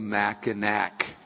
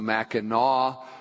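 First: The name is pronounced the way outsiders say it. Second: The name is pronounced the way locals say it. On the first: The speaker is not from the area. The speaker calls it wrong. "people that are not from there call it the Mackinac Bridge" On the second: The speaker is from the area. The speaker calls it right. "it properly is pronounced the Mackinac Bridge"

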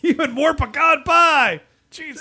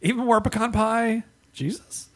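First: It is said as a forceful exclamation. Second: It is said as a rising question.

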